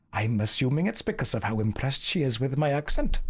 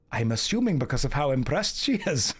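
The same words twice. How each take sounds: First: A lilting Welsh accent held to the end. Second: Lilting Welsh accent that slides into Scottish; Welsh accent drifting Scottish. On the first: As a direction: redo the line in Welsh, keep it Welsh. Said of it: "We can change it back. Wales". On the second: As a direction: attempt a Welsh accent, lose it to Scottish at the end. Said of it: "That went Scottish at the end there". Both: Shown as a demonstration.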